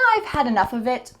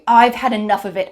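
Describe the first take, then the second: First: It is said in a light, calm tone. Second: It is said in an angry, annoyed tone. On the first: The speaker simply does not like the drink. "you can say it in a lighter way" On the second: The speaker is fed up with a repeated situation. "You could say this if you were really angry"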